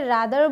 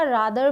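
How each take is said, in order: First: "rather" with an "ae" first vowel, like "radder"; open-front "rather". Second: "rather" with a long "aa" first vowel; broad-a "rather". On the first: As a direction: say "rather" as RA-ther with the flat a of "cat". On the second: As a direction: say "rather" as RAH-ther with the long a of "father". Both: Shown as a demonstration. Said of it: "दोनों ही सही है".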